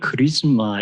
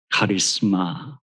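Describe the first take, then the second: First: It is said with an English pronunciation. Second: It is said with a Greek pronunciation. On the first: "영어로는 크리스마 이런 발음을 주로 하는 것 같은데" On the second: "이 카리스마 하는 이 단어는 헬라어입니다"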